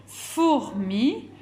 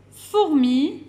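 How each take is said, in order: First: "Fourmi" broken slowly as four, then mi; split into syllables. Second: Said in the usual way. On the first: Shown as a demonstration. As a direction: separate the first syllable of "Fourmi" for children. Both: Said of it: "commence par la syllabe".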